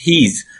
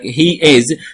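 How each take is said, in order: First: The two words are merged into one contracted syllable. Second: The two words are said fully and separately. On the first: "native speaker, they pronounce it he's" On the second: "like he is"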